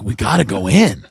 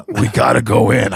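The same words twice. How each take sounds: First: Said in the usual way. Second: Lightly put-on lower voice of a friend; Brian Half. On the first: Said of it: "I'm like". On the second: Friend insists on going inside, light low impression. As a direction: lightly imitate the buddy, pitched down. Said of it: "he talks like this".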